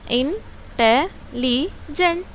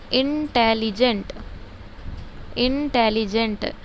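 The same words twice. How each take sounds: First: intelligent slowly in four parts, इन, टे, लि, gent; syllable by syllable. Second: Said in the usual way. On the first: Shown as a demonstration. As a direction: count out intelligent with a pause after each syllable. (Intelligent को चार हिस्सों में रुक-रुककर) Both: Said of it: "कितने हुए बोलो".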